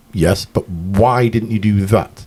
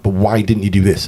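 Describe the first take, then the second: First: "why didn't you do that?" slowed down with "why" leaned on; a slow, deliberate "why" pressed home; slow pointed question. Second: Said in the usual way. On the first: Retold or imitated. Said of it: "And I say". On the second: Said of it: "I'll go".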